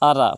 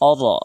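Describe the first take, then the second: First: The r sound is thin and light. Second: The r sound is full and heavy. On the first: The speaker calls it wrong. "আরা পড়লে হবে না" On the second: The speaker calls it right. "রাটা পুর হবে"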